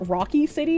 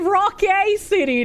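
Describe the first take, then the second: First: The first word ends in an 'ee' sound. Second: The first word ends in an 'ay' sound. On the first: The speaker calls it wrong. "you thought the game was Rocky City" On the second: The speaker calls it right. "it's actually Rock A City, not Rocky"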